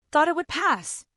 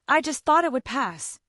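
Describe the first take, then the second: First: Higher-pitched, mildly indignant echo; voice rising. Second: Said in the usual way. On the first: A narrator's reading. Husband repeating his wife's words, voice rising. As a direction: repeat it back with the pitch lifted. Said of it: "my voice rising". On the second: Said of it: "she muttered".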